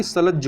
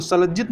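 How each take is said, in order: First: सलज्ज ending on double j; correct form. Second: सलज्जित ending in "jit"; wrong form. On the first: Teacher corrects for learners, सलज्ज ending in "jj". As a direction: say सलज्ज without any "it" ending. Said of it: "सलज्ज होता है". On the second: Teacher rejects the error, सलज्जित with final "it". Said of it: "सलज्जित नहीं होता". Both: Shown as a demonstration.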